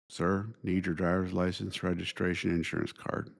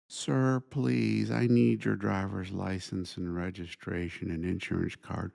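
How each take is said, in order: First: It is said in a curt, matter-of-fact tone. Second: It is said in a pleading, begging tone.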